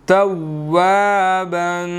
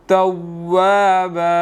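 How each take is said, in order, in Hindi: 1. शब्द का आख़िरी साउंड 'n' है। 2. शब्द लंबे स्वर पर खत्म होता है, बिना 'n' के।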